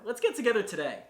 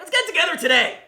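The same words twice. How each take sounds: First: It is said in a calm, inviting way. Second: It is said in a pushy, aggressive way. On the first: An easygoing, welcoming invitation to meet. "The way I say it is nice, calming, inviting, ready to go" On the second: A forceful push to meet. "It can come off really aggressive"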